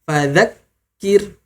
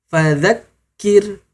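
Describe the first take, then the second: Both takes have the same delivery.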